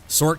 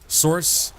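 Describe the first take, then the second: First: It ends abruptly with a hard k sound. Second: It ends softly, stretched to one and a half syllables. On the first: "Sork has that hard cut, stops" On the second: "It's not quite two syllables, but it's like one and a half"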